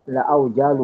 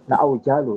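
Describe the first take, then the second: No difference in how they are said.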